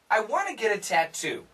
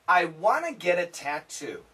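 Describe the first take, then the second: First: The sentence is said at a fast pace. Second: The sentence is said at a slow pace. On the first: "Let's say it faster" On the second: "let's say it together a little bit slow"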